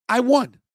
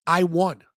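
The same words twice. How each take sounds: First: Higher and louder, claiming the win; triumphant. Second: Said in the usual way. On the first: Real, not acted. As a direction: say it again with a burst of pride. Louder repeat of his triumph.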